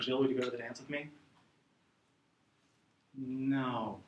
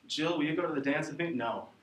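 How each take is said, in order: First: No follows the question after a pause. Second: No follows the question immediately.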